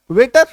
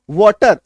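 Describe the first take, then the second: First: वेटर said louder as the wrong vowel; wrong reading. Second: वाटर said louder with open aw; correct pronunciation. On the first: Teacher showing the wrong reading of water. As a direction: stress the mistake वेटर. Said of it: "इसको वेटर पढ़ देंगे". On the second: Teacher confirming water to the class. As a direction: repeat वाटर as wɔːtər, emphatic. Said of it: "इसका उच्चारण क्या होता है?". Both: Shown as a demonstration.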